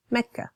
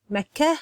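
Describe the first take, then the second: First: Mecca ending on a soft open A. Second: Mecca ending on a soft breathy H. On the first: Retold or imitated. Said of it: "So she has a softer A". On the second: Shown as a demonstration. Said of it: "I tend to have the soft H sound at the end".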